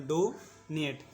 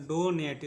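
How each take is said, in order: First: "donate" slowly, drawing out डो before नेट; slow teaching repeat. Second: Said in the usual way. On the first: Shown as a demonstration. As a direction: stretch and separate the halves of "donate". शब्द तोड़कर दोहराना. ("Donate" को धीरे, डो खींचकर और नेट अलग)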